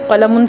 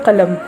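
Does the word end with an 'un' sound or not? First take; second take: un ending; no ending. First: The word ends with an added 'un' sound. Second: The word ends without the 'un' sound.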